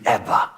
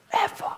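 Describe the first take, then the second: First: Said in the usual way. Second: Whispered echo. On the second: Shown as a demonstration. Speaker whispers "Ever." as a punchline echo. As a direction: breathe the word "Ever." as a whisper.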